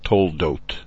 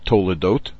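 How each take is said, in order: First: No vowel sounds between the t and the l. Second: A vowel sounds between the t and the l. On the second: This is how a native Hebrew speaker says it. "a fluent native Hebrew speaker ... will probably say Toledot"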